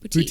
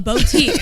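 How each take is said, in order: First: The first syllable sounds like 'boo', unemphasized. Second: The first syllable sounds like 'bow', emphasized. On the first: The speaker calls it right. "like boo" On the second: The speaker calls it wrong. "he's like really putting emphasis on bow"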